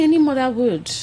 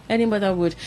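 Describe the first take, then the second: First: Any mother would, louder and higher on ANY; emphatic. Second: Said in the usual way. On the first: Real, not acted. Co-host insisting any mother would feel it, with strong emphasis. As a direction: hit "any" hard, rising voice.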